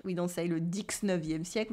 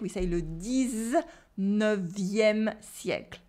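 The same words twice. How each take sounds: First: Dix-neuvième said wrongly with a KS in dix; wrong X sound. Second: Dix-neuvième with a Z in dix, slowly; Z sound. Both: Shown as a demonstration. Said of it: "instead of the X sound".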